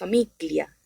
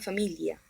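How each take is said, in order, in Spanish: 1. En medio hay un sonido de g dura. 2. En medio hay un sonido de elle palatal suave. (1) "no diríamos famiglia" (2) "hago como una elle"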